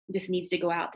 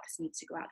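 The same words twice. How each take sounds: First: Said in the usual way. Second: Whispered echo of the message; unvoiced whisper, fading repeat. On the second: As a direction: breathe it like a voice in your ear. Channeled message heard in ear.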